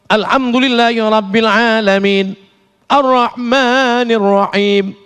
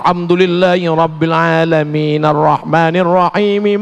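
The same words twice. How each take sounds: First: Each phrase ends with a stop and pause. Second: The phrases run together without any pause. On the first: "Itu namanya wa wakaf" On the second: "Kalau wasol"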